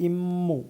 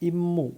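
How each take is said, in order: No difference in how they are said.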